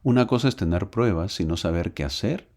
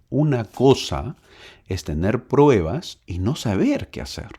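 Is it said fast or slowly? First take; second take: fast; slowly. First: It is said fast. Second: It is said slowly.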